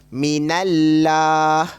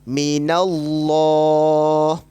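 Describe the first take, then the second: First: The L in Allah is thin and light. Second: The L in Allah is thick and heavy. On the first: The speaker calls it wrong. "Jangan baca minallah. Itu bacaan yang salah kerana tidak tebal" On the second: The speaker calls it right. "Yang tebal minallah"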